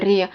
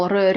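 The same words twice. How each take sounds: First: R palatalized as "ryuh"; palatalized Slavic R; soft R. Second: R as a rolled hard "ruh"; non-palatalized Slavic R. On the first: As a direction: say R soft, with a y-glide. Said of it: "soft form". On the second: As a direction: trill R without palatalizing. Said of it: "every consonant". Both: Shown as a demonstration.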